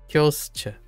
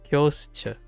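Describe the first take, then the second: The two takes are said the same way.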